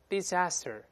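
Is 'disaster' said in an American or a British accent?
American. It is said in an American accent.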